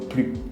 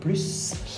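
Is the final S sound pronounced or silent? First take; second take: silent; pronounced. First: The final S sound is silent. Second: The final S sound is pronounced. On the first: "on ne prononce pas le S" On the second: "on va prononcer le S"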